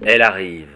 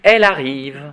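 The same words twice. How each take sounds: First: It is said in a deep man's voice. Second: It is said in a high, childlike voice.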